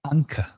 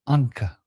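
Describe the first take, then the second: Both takes have the same delivery.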